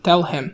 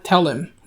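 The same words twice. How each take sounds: First: The h is pronounced clearly in him. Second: The h is dropped, linking tell 'im quickly. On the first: "مش tell him" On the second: "أغلب الأمريكان لما يجوا ينطقوها بسرعة بينطقوها tell him زي كده"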